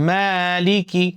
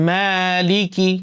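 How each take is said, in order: No difference in how they are said.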